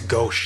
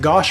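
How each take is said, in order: First: The vowel sounds like the one in 'go'. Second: The vowel sounds like the one in 'posh'. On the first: "I think it's Gauche is actually the proper pronunciation" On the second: "is it Gosh"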